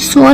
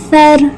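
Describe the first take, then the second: First: The consonant is a heavy, emphatic s. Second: The consonant is a soft th, tongue out. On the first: The speaker calls it wrong. "इसको स्वाद की तरह नहीं पढ़ेंगे, इसको हम स्वर नहीं पढ़ेंगे" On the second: The speaker calls it right. "इसको सर सर नरमी से अदा करेंगे"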